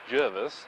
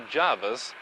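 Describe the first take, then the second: First: The first vowel sounds like the vowel in 'her'. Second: The first vowel sounds like the vowel in 'car'. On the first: It follows the written spelling. "as the spelling indicates" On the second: It follows the common usage in the media. "as most widely used by other media in Australia"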